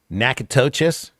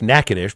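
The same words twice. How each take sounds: First: The name is pronounced letter by letter, as spelled. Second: The name is pronounced with its local, shortened form. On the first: This is how it looks in writing. The speaker calls it wrong. "when you look at it, you want to pronounce it" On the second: This is how people from the state say it. The speaker calls it right. "who've grown up in the state here know it's"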